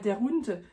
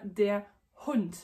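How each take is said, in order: First: The words run together without a pause. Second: A short pause comes before Hund. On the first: The speaker calls it wrong. "ne dis pas der Hund" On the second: The speaker calls it right. "tu as obligé de faire la pause pour faire le H, mais bien der Hund"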